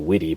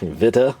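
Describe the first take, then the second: First: The name sounds like the English word 'witty'. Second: The name sounds like 'Vita' with a German V. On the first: A joking personal pronunciation. The speaker calls it wrong. "I like to say witty personally. I know that's one hundred percent incorrect" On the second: The official pronunciation. The speaker calls it right. "that's the German Tool Review's official pronunciation"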